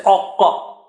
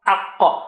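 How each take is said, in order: First: Aqqa with the first a rounded to o; teacher showing the mistake in aqqa; wrong vowel. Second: Aqqa with a low a and a high, deep qa; a low, then a high qa in aqqa; teacher modelling the correct aqqa. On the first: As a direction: show the rounded aqqa as the error. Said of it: "Don't say". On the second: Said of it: "A is low and qa is high". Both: Shown as a demonstration.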